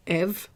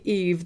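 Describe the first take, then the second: First: "Eve" said as "ev" with an open short e; "Eve" with French è; French pronunciation. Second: "Eve" with a long ee vowel; "Eve" the English way, as "eev"; English pronunciation. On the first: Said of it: "in French, because that's what I hear". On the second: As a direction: say "Eve" to rhyme with "leave". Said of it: "When people call me Eve". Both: Shown as a demonstration.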